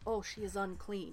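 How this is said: It sounds creepy and judgmental.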